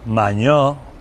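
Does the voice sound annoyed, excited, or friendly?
excited. It sounds joyful and excited. Celebrating having won the lottery. "A un maño le toca la lotería"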